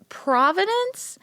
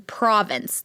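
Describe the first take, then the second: First: "Providence?" said slowly with a high questioning rise; a slow, high, unsure "Providence?"; wrong word. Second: "Province" said plainly with a falling close; a settled, matter-of-fact "Province"; corrected word. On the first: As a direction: drag out "Providence?" much higher, like a guess. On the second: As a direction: state "Province" flatly, as the fix. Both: Shown as a demonstration. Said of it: "I said that wrong".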